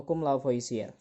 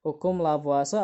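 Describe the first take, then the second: First: "Lavoisier" said as la-vo-i-si-er; spelling reading of "Lavoisier", la-vo-i-si-er; read as spelled. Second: "Lavoisier" said as la-vwa-se; three syllables in "Lavoisier", la-vwa-se; usual spoken pronunciation. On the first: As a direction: sound out every written vowel of "Lavoisier", la-vo-i-si-er. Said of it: "Meskipun tulisannya Lavoisier". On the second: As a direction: say "Lavoisier" French-style, la-VWA-se. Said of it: "biasanya orang bacanya itu Lavoisier". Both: Shown as a demonstration.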